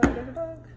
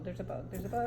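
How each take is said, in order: First: Higher and louder, startled; real alarm at the bug; alarmed cry. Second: Said in the usual way. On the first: Real, not acted. Spots a bug.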